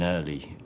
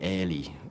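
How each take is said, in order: First: It is said in a standard accent. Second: It is said in a Scouse accent.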